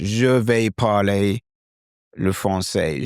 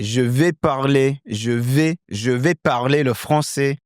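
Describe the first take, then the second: First: Slow British-accented French; English-accented French. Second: Lighter French-accented delivery; native French accent. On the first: Teacher announcing he will speak French, English-accented French. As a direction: plod through it with English vowels. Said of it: "So the bonjour is English". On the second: Teacher becoming Clément, native French accent. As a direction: say it with French vowels and tune. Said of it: "now I'm adopting that character". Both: Shown as a demonstration.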